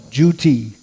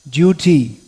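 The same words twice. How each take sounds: First: The word begins with a 'dyoo' sound. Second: The word begins with a plain 'doo' sound. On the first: "as Srila Prabhupada used to pronounce it" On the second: "they don't say "duh" for duty"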